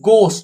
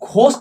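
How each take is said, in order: First: The first consonant is plain without aspiration. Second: The first consonant is breathy and aspirated. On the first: The speaker calls it right. "এটা গোস্ট" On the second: The speaker calls it wrong. "ঘোস্ট নয়"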